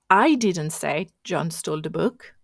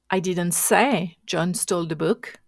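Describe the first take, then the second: First: "I" punched, rest of "I didn't say John stole the book" even; stress on I. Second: "say" punched and lifted in "I didn't say John stole the book"; stress on SAY. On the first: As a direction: lean on the word "I", as if someone else said it. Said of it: "which means somebody else said that". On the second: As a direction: lean on "say", implying it was only hinted. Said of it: "The, the, the tone was on the, um, say". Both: Shown as a demonstration.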